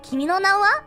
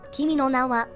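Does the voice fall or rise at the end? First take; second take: rise; fall. First: The voice rises at the end. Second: The voice stays level or falls at the end. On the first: It is a question. "with the intonation, makes it more of a question" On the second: It is a plain statement. "this is kind of just like a statement"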